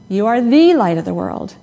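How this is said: The stress is on "the".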